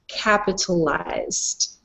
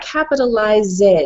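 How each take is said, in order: First: The word ends with a clear D sound. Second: The word ends without a clear D sound. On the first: The speaker calls it right. "pronounce the D" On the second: The speaker calls it wrong. "no, not capitalized"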